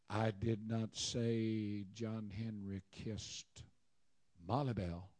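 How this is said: The stress falls on 'Molly Bell'. He kissed someone else. "John Henry kissed Annie Sue"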